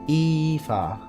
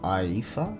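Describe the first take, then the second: First: The first vowel does not sound like 'eye'. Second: The first vowel sounds like the word 'eye'. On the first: The speaker calls it wrong. "it'd be weird to be like" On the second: The speaker calls it right. "I'm just seeing and pronouncing it as I"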